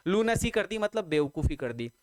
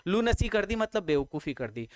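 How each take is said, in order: Both takes have the same delivery.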